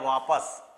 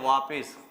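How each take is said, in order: First: The second syllable has an 'a' vowel. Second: The second syllable has an 'i' vowel. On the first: The speaker calls it right. "इस वाक्य के अंदर एक शब्द आया वापस" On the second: The speaker calls it wrong. "हम हमें उमन क्या बोलते हैं, वापिस। वापिस शब्द नहीं होता"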